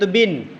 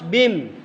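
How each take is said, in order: First: The syllable ends with a clear n sound. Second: The syllable ends with an m sound. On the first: The nasal is read separately from the next letter. The speaker calls it wrong. "Tulisannya di situ bin" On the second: The nasal merges into the following letter. The speaker calls it right. "tapi kalau dibaca harus bim"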